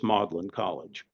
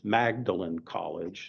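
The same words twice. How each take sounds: First: Magdalen is pronounced the British way. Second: Magdalen is pronounced the American way. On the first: "the British, ... pronounced this Magdalen College" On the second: "as Americans, we'd read that and think it's Magdalen College"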